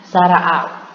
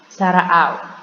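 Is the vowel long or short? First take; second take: short; short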